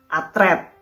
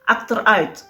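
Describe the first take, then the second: First: It is said as a shortened Indonesian form. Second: It is said with Dutch pronunciation.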